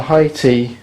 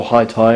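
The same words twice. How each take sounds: First: "high tea" with tea rhyming with see; "high tea", second word as tee; pronounced high tea. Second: "high tie" with tie rhyming with my; "high tie", second word like necktie; pronounced high tie. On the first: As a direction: say "high tea" with a long ee ending. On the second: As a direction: say "high tie" with an eye-sound ending. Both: Shown as a demonstration. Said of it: "however you like to pronounce it".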